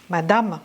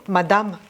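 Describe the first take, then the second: The two takes are said the same way.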